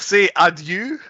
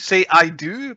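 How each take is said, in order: First: It is said in a mock Scottish accent. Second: It is said in a plain accent.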